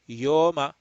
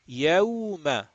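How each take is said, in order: First: The first vowel is a plain o sound. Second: The first vowel glides from a to w. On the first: The speaker calls it wrong. "A lot of people say yoma. No" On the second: The speaker calls it right. "You have to read it like this"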